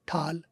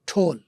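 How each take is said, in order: First: The vowel is an open American 'aa' sound. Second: The vowel is a rounded British 'o' sound.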